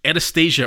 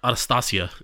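First: The name is pronounced in an ordinary, everyday way. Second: The name is pronounced in a posh, refined way.

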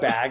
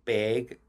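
First: Bag is said in a general Midwestern accent. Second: Bag is said in a Minnesota accent. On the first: "we say like bag in the Midwest" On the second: "in Minnesota, like in the upper part, they say like bag"

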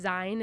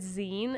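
First: The word does not rhyme with magazine. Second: The word rhymes with magazine. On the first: The speaker calls it wrong. "I always pronounced it as Zine in my head" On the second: The speaker calls it right. "oh, like magazine"

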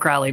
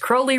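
First: The name does not rhyme with holy. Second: The name rhymes with holy. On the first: This is how most people say the name. "Everybody refers to him as Crowley" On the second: This is how the man himself said his name. "he thought it was Crowley rhymes with holy"

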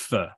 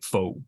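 First: The word does not sound like 'faux'. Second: The word sounds like 'faux', with an 'oh' vowel. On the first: The speaker calls it right. "but it's not. It's pho" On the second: The speaker calls it wrong. "people play on the word as if it sounds like faux"

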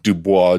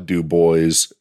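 First: It is said with a French pronunciation. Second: It is said with an anglicized local pronunciation.

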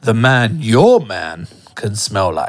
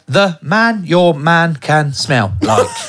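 First: The word 'your' gets strong extra stress. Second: No word in the line gets extra stress. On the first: The speaker calls it right. "That's quite good, yeah" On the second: The speaker calls it wrong. "It sounds like you're reading a Peter and Jane book"

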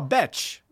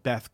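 First: The name ends with a 'ch' sound. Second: The name ends with a soft 'th' sound. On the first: The speaker calls it right. "oh, Betch. ... B-E-F Betch" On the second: The speaker calls it wrong. "do you know [name]?"

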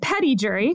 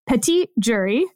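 First: The first word sounds like English 'petty'. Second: The first word has a French-style pronunciation. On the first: This is how it is commonly said. "So we pronounce them grand jury and petty jury" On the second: This reflects the word's original source. "But in fact, it is grand jury and petit jury. And it's taken from French"

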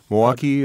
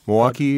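First: The L is dropped, giving two syllables. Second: The L is dropped, giving two syllables.

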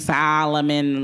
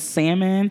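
First: It is said like the name Solomon. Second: It is said as plain salmon. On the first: The speaker calls it wrong. "Stop saying Solomon. Like, that's in the Bible" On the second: The speaker calls it right. "I keep telling you that it's salmon"

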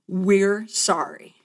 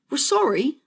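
First: It is said in the speaker's plain accent. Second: It is said in a British accent.

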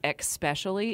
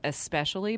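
First: The middle does not sound like 'special'. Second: The middle sounds like the word 'special'. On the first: The speaker calls it wrong. "I hate the when people say especially" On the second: The speaker calls it right. "the C is after the S in especially. So it's like special"

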